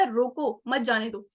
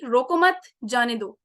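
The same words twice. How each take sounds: First: "रोको", a break, then "मत जाने दो"; pause after रोको. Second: "रोको मत" joined, a break, "जाने दो"; pause after मत. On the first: Trainer gives the second version, pause after "रोको". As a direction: stop on "रोको", slowly give "मत जाने दो" together. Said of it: "और सेकंड में बोला". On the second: Trainer explains the changed tone, pause after "मत". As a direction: join "रोको मत", then release "जाने दो". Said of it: "tone change की". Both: Shown as a demonstration.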